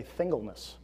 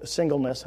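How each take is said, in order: First: "thingleness" with th in place of the opening s; lisped slip. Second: Said in the usual way. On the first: Shown as a demonstration. Preacher owning his slip of the tongue, lisped "thingleness". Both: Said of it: "I was gonna say thingleness".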